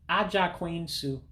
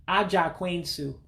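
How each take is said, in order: The two takes are said the same way.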